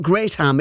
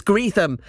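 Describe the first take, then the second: First: "Greatham" with "great" as in big, grayt-ham; Greatham, wrong way. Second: "Greetham" as greet-um, long ee and no h; Greetham, local way. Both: Retold or imitated. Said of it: "informs me it's Greetham".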